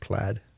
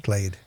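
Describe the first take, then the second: First: The vowel rhymes with the word bad. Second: The vowel rhymes with the word made. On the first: The speaker calls it wrong. "It's not plaid" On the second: The speaker calls it right. "It's played"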